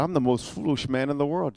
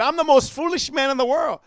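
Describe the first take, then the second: First: Said in the usual way. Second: Mock self-scolding, pitched higher; dry sarcastic jab, higher than the telling. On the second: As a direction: scoff at yourself for getting saved early. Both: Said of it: "he's being sarcastic".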